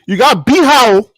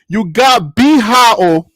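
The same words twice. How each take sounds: First: It is said at a fast pace. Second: It is said at a slow pace.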